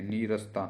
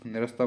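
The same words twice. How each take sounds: First: नीरसता with a long first ee; correct pronunciation. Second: निरस्ता with a short first i; wrong pronunciation. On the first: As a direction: stretch नी in नीरसता. (नीरसता में लंबी ई की ध्वनि) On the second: (निरस्ता में छोटी इ की ध्वनि) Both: Shown as a demonstration. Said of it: "कोई नहीं".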